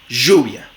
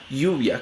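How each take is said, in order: First: The first sound is a buzzing zh. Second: The first sound is a soft, gliding y. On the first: "Como fricativa postalveolar sonora" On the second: "una aproximante palatal sonora"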